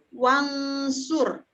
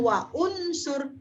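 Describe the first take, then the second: First: The words run together with no glottal stop. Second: A glottal stop separates the two words. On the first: The speaker calls it right. "maka akan dibaca wansur" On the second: The speaker calls it wrong. "Bukan wa unsur"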